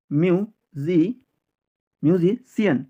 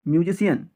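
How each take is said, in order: First: Syllable by syllable. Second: Said in the usual way. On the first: Shown as a demonstration. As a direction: break musician into pieces with pauses. Teacher builds word in pieces.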